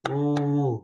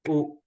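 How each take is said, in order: First: The vowel is held for about two beats. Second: The vowel is held for one short beat. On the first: "When it's dirghaswara" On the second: "wherever this rasvaswara, we have to give one"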